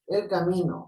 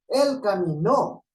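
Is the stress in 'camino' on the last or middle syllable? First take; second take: middle; last. First: The stress is on the middle syllable. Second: The stress is on the last syllable. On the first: A road or path. "A una vía" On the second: He walked. "una acción de un hombre que está caminando"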